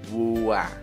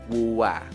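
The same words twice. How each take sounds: Both takes have the same delivery.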